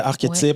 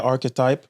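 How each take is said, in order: First: The word is pronounced the French way. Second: The word is pronounced the English way. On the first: "Ça se dit bien en français" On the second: "en anglais"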